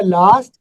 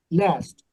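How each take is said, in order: First: "लास्ट" with a long open "aa", like "laast"; British pronunciation. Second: "लास्ट" with a flat "a", like "lest"; American pronunciation. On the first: Teacher modelling the British "last" for students. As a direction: stretch "लास्ट" British style. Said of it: "British वाला बोलता है". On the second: Teacher modelling the American "last" for students. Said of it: "American वाला बोलता है". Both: Shown as a demonstration.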